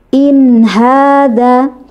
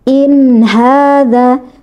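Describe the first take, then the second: Both takes have the same delivery.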